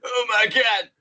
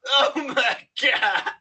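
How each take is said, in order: First: It is said less emphatically. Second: It is said more emphatically.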